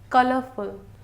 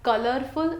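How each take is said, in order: First: The R sound after the vowel is silent. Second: The R sound after the vowel is pronounced. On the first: The speaker calls it right. "don't pronounce the word R in that" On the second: The speaker calls it wrong. "It is not colorful"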